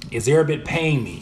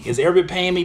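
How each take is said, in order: First: Said in the usual way. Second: Higher, incredulous repeat of a question; mock offended. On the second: Streamer repeating a viewer's nosy question, mock offended. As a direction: throw the question back in mock indignation.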